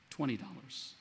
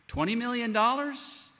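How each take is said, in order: First: "Twenty dollars." said lower and softer, dismissive; small sum played down. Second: "Twenty million dollars?" said higher and louder, astonished; big sum stressed. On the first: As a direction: drop the small number low and quiet. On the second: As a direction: throw the big number out high. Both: Shown as a demonstration. Contrasting two debts.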